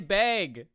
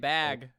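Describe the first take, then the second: First: Bag is said with a Midwestern vowel. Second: Bag is said with a non-Midwestern vowel. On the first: This is how the speaker's own group says it. "We say bag with the A" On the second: This is how other people say it. "They say"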